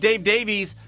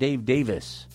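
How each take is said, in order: First: The surname has an 'ee' sound, like Day-veez. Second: The surname is said plainly, like Day-vis. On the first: The speaker calls it wrong. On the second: The speaker calls it right.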